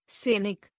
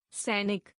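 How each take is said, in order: First: सैनिक with "e" for "ai"; mispronounced. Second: Said in the usual way. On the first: Shown as a demonstration. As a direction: say सैनिक as "senik". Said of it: "अशुद्ध". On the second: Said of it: "शुद्ध".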